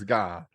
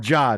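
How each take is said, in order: First: The word starts with a hard G sound. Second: The word starts with a J sound.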